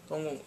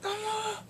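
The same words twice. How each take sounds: First: Said in the usual way. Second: High called name Dongwon; calling out. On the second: Retold or imitated. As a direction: call Dongwon from afar. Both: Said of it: "He's like".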